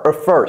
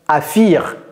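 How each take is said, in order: First: The second syllable sounds like 'fur'. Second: The second syllable sounds like 'fir'. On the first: The speaker calls it right. "c'est a fur" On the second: The speaker calls it wrong. "elle n'a pas dit affir"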